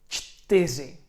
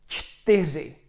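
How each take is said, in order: Both takes have the same delivery.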